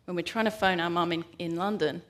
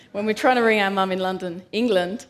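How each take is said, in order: First: Said in the usual way. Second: Louder, stressing London, England; louder emphatic restatement. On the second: Shown as a demonstration. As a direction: say "London, England" louder, pressing each word.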